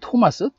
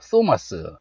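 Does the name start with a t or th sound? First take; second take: t; th. First: It starts with a plain t sound. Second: It starts with a th sound.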